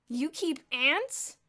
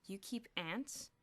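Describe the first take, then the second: First: Very slow, loud and high, disbelieving; echoed in disbelief. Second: Said in the usual way. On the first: A narrator's reading. A dozen boys echoing Elmer, astonished. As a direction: draw it out in disbelief. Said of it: "echoed a dozen voices". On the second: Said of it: "Chapter five".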